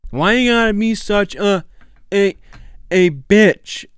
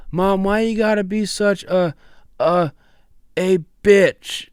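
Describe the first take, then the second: First: Put-on high, loud whiny teen whine; Walter Junior impression. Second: Put-on high, loud whiny teen voice; Walter Junior impression. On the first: Host repeating the accent challenge line after the video, high whiny teen voice. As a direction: whine it like a bratty teenager. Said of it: "He does it so good". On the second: Host imitating Walter Junior's line to his co-host, high whiny teen voice. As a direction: whine it at Mom like a petulant teen. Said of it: "The way he says it, he goes".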